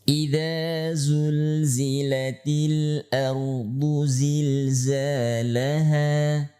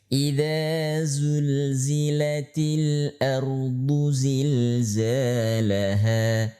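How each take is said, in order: The two takes are said the same way.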